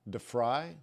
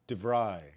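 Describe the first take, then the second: First: The consonant before the R sounds like F. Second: The consonant before the R sounds like V. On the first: The speaker calls it wrong. "The V is not pronounced like an F" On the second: The speaker calls it right. "I think it's DeVry"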